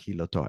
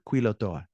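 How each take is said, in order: First: The word begins with a raspy h sound. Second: The word begins with a k sound. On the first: The speaker calls it wrong. "I read it with a J" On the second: The speaker calls it right. "With a Q U, you would have a K sound"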